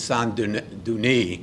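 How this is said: It is said with a French pronunciation. "in French it's"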